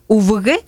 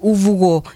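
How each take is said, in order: First: The word ends with an E-like vowel. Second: The word ends with an O-like vowel. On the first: This is one local sub-dialect's form of 'grandfather'. "Галина Челтумовна говорит «увгэ»" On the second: This is another local sub-dialect's form of 'grandfather'. "а я говорю «увго»"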